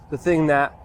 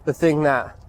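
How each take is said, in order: Both takes have the same delivery.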